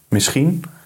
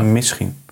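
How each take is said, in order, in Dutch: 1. De klemtoon ligt op de tweede lettergreep. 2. De klemtoon ligt op de eerste lettergreep. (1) "Want jij doet het op het tweede deel van het woord" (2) "En ik het eerste deel"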